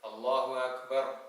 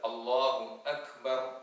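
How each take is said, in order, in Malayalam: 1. അക്ബർ തൊണ്ടയടപ്പില്ലാതെ മൃദുവായി തുടങ്ങുന്നു. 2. അക്ബർ വ്യക്തമായ തൊണ്ടയടപ്പോടെ തുടങ്ങുന്നു. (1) "ആ ഹംസ കൃത്യമായി ഉച്ചരിക്കാതെ" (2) "ആ രൂപത്തിൽ കൃത്യമായി"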